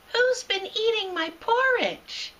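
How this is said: It is said in a high, squeaky voice.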